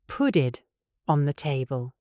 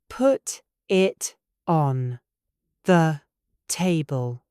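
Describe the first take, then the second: First: The Ts in 'put it' sound like Ds. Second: The Ts in 'put it' are clear and separate. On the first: "An American might say" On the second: "A British speaker ... will separate these sounds"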